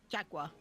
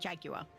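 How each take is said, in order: First: The word is said with an American pronunciation. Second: The word is said with a British pronunciation. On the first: It names the sports team. "Because Americans" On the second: It names the big cat. "because I'm British"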